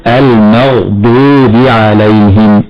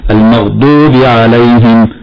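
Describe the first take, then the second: First: Slow "المغضوب" with full emphatic ض; heavy Dad. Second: "المغضوب" with a weak, barely heavy ض; under-emphasised Dad. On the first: Sheikh showing the correct way, "المغضوب" with heavy ض. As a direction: recite "المغضوب" slowly, thickening the ض. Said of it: "الضاد هنا مفخمة". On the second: Sheikh showing an error, "المغضوب" with too-light ض. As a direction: let the ض of "المغضوب" go thin. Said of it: "لا يبالغ في التفخيم بالنسبة للضاد". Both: Shown as a demonstration.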